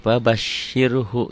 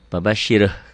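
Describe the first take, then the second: First: The word ends with a short final vowel. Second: The word ends without its final vowel. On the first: The reading continues into the next word. "kalau di disambung" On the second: The reading stops at this word. "kalau dihentikan"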